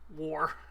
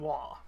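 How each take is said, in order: First: It is said in a plain accent. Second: It is said in a Cockney accent.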